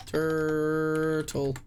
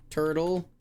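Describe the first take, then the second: First: "Turtle" stretched long with a falling tune; a slow, sagging "Turtle"; drawn-out turtle. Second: Said in the usual way. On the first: Shown as a demonstration. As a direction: draw out "Turtle" slowly as you type it. Typing guess, then drawn out.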